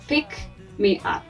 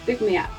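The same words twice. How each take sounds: First: The k is released through the mouth. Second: The k is released through the nose. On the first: The speaker calls it wrong. "We don't say pick me up" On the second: The speaker calls it right. "we said pick me up"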